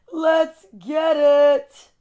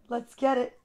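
First: "Let's get it" stretched out very slow and pumped up; slow, hyped-up rallying cry on "Let's get it"; hype call. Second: Said in the usual way. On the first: Shown as a demonstration.

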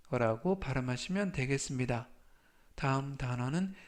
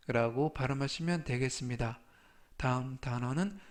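No difference in how they are said.

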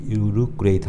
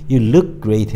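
First: Slow "You look great", word by word; "look great" with no linking between the words; unlinked LOOK GREAT. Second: Slow "look great", joined through the k; "look" caught on its k, then straight into "great"; linked LOOK GREAT. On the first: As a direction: keep "look" and "great" apart. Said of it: "하면 안 되고". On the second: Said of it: "해야 되지". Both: Shown as a demonstration.

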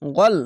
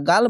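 First: গল with a full, rounded o; thick ghain. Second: গাল with an open a; wrong thin vowel. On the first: Teacher corrects the vowel for learners, thick rounded sound. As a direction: make গল heavy, rounded, not aa. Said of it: "মোটা অক্ষর গইন". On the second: Teacher warns learners off this reading, open a. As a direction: say গাল with a plain aa. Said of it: "এখানে গাল বলবে না". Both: Shown as a demonstration.

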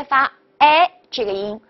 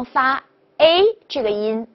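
First: "A" opened up, French è; big-mouth A. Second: "A" with the mouth narrowed, French é; small-mouth A. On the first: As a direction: say "A" as an open eh, wide mouth. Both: Shown as a demonstration. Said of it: "大口的A和小口的A".

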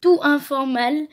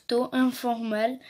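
First: "Tout informal" said louder, fixing the first try in French accent; corrected reading. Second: Reading "Taux informal" slowly in a heavy French accent; slow stumbling English. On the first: Girl fixes her reading of the English card, louder. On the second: Girl reading English card aloud, hesitant French accent. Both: Real, not acted. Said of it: "Vous allez voir mon accent de ouf".

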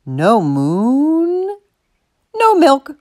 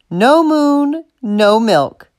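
First: Long drawn-out MOON, then short high NO MILK; insistent, lingering ultimatum; firm confirmation. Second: Brisk, matter-of-fact echo; resigned quoting of a familiar refrain; weary echo. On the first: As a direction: confirm it stubbornly, stretching MOON. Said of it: "Martha confirmed". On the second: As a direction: recite her demand back, already knowing it. Rob echoes Martha's ultimatum. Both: A narrator's reading.

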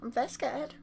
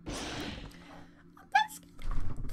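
First: High, shaky-free scared restatement; saying it again, more scared; frightened repeat. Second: Breathless, unvoiced, slow scared whisper; barely getting the words out; whispered fear. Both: Real, not acted.

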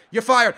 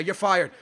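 First: Raised, emphatic voice; louder dismissal. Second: Said in the usual way. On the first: Real, not acted. Gamer fires player who lost the ball, raised voice. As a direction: repeat it louder to drive it home.

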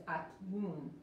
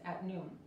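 First: "at noon" with a fully released, separate T; overpronounced T. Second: "at noon" with the T held, barely heard; trapped T. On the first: Teacher showing students the mistake, released T in "at noon". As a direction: pop the T in "at noon" before the N. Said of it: "no pronunciamos bien la T". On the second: Teacher correcting students' pronunciation, trapped T in "at noon". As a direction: stop the T in "at noon" without releasing it. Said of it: "Se quedó como atrapada". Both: Shown as a demonstration.

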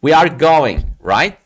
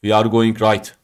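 First: "We are going" emphatic and loud, then a separate rising "right?"; intoned tag question. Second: "We are going right" as one statement, no break before "right"; toneless wrong demo. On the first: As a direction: break after "going" and lift "right" as a question. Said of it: "vurgu ve tonlamayla söylüyorsun". ("We are going" vurgulu, ardından "right?" yükselen soru tonuyla) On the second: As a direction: run "right" straight on after "going", without a question tune. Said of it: "dersen olmaz". ("We are going right" tonlamasız, soru ezgisi olmadan)

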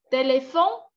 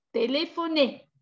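First: TÉLÉPHONE ending on the N; silent final E. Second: TÉLÉPHONER ending on a clear "ay"; final É sounded. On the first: Teacher contrasting two endings for students, silent final E. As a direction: say "téléphone" as té-lé-FON, final E dropped. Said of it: "Sinon, vous prononcez téléphone". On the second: Teacher contrasting two endings for students, final É sounded. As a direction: say "téléphoner" as té-lé-pho-NAY, last vowel voiced. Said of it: "vous prononcez téléphoner". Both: Shown as a demonstration.

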